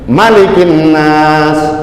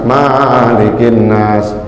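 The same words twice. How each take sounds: First: The first vowel of malikin is kept short. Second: The first vowel of malikin is drawn out long. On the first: The speaker calls it right. "Pendek tuh ya ... Malikin nas gitu, jelas" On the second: The speaker calls it wrong. "salah, jangan"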